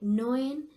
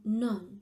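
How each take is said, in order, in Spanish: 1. La vocal E se pronuncia como sonido propio. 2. La vocal E se omite, fundida en una sola sílaba. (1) "no es diu noen" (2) "Es perdre tota el so, tot el so de la vocal E"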